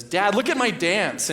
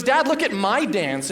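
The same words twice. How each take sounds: First: Put-on high, slow, proud toddler asking to be watched; little girl voice. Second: Put-on high, slow, eager child voice; four-year-old voice. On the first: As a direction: show off a dance to dad. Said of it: "she looks at me and says". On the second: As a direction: announce your dance to dad. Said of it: "and she goes".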